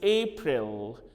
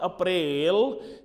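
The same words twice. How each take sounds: First: The first syllable sounds like 'ape'. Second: The first syllable sounds like 'ap'. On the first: The speaker calls it right. "it is April" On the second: The speaker calls it wrong. "is not April"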